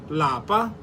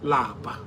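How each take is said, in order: First: The word is said with a high tone. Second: The word is said with a low tone. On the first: It means home. "In higher tone, lapa means home" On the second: It means to be tired. "Lower tone, which lapa. Lapa means to be tired"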